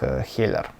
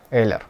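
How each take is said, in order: First: The word starts with an h sound. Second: The word starts with a vowel, no h. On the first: This is the English way to say it. "привычнее произносить по английской транскрипции как Heller" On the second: This is the French way to say it. "во французском произношении это будет как Eller"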